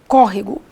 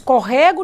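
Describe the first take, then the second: First: The stress is on the first syllable. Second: The stress is on the second syllable. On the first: The speaker calls it right. "tem uma forcinha na antepenúltima sílaba" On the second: The speaker calls it wrong. "Nós não dizemos corrego"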